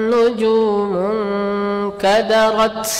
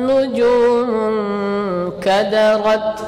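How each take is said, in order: The two takes are said the same way.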